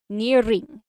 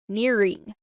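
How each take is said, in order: First: The R is rolled on the tongue. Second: The R is an American R, not rolled. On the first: "we have a more rolling R sound" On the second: "this is more of an American R sound"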